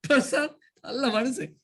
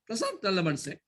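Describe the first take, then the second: First: "Prashanth" lifted and lingered on, "நல்ல" stretched; drawn-out teasing. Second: Said in the usual way. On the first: Shown as a demonstration. Teacher contrasting ways of saying it, teasing drawn-out delivery. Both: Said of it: "சொல்லும் விதம்".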